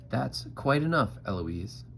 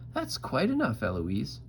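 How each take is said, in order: First: Lightly voiced stern tutor; tutore Philip. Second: Very high mocking echo; Eloise mimicking. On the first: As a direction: tutor putting a stop to it. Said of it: "And he says". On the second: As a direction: parrot the tutor way up high. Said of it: "And I say". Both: A narrator's reading.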